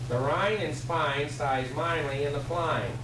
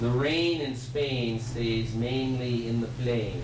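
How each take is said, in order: First: It is said in a Cockney accent. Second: It is said in a standard, non-Cockney accent. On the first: "This is what Liza talks" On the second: "Not in Cockney accent it doesn't"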